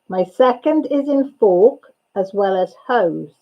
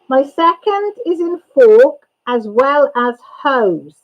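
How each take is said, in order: First: It is read at normal speed. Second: It is read more slowly.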